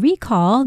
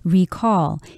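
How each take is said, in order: First: The stress is on the first syllable. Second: The stress is on the second syllable. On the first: It is used as a noun. "the noun, ... put the stress on the first syllable" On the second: It is used as a verb. "If you were to use the word as a verb, then you would say recall"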